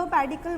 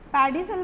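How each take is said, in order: First: पेडिकल said with a K sound in the last syllable; hard-c pronunciation. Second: पेडिसल said with an S sound in the last syllable; soft-c pronunciation. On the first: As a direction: say पेडिकल, ending in "kul". (पेडिकल में आख़िर में "क" की आवाज़) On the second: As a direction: say पेडिसल, ending in "sul". (पेडिसल में आख़िर में "स" की आवाज़) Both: Shown as a demonstration. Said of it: "that is your choice".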